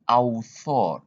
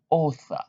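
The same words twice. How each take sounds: First: The first vowel is not said as O. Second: The first vowel is said as an O sound. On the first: The speaker calls it wrong. "not author" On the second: The speaker calls it right. "no, author"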